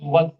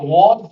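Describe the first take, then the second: First: The vowel is weak and reduced. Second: The vowel is full and strong. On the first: The speaker calls it right. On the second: The speaker calls it wrong. "we don't usually say was"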